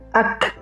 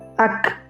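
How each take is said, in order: First: The final k is released with air. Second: The same.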